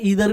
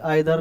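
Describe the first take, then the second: First: The first vowel sounds like 'ee'. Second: The first vowel sounds like 'eye'.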